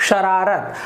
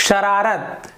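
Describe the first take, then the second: Both takes have the same delivery.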